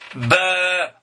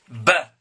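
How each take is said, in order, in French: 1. La voyelle est longue. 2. La voyelle est courte. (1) "si je rajoute alif... ça allonge la voix" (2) "quand je mets ba, je vous ai dit la dernière fois, ça se prononce ba"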